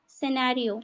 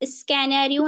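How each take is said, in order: First: The word begins with an s sound. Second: The word begins with an sk sound. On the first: The speaker calls it right. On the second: The speaker calls it wrong.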